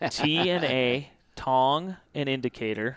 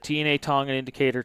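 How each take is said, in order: First: It is said slowly and more deliberately. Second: It is said quickly, at normal speaking pace.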